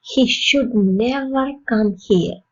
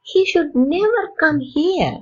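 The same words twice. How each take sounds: First: Slow, even statement; slow model sentence. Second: "never" pitched up and stressed. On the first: Teacher modelling a sentence for learners, slow and even. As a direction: say it slowly and evenly. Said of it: "model sentence". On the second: Teacher stressing "never" for learners, higher. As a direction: hit the word "never" high. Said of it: "repeat with stress". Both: Shown as a demonstration.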